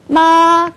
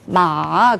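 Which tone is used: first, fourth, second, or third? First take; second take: first; third. First: It is said in the first tone. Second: It is said in the third tone. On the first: It means mother. "요걸 일성이라고 그러거든요" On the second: It means horse. "삼성이 되거든요"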